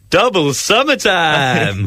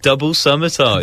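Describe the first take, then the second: First: It is said in a bright, cheerful way. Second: It is said in a plain, neutral way. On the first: "say it in a summary way" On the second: "Say that again"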